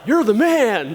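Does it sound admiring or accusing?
admiring. It sounds like an admiring compliment.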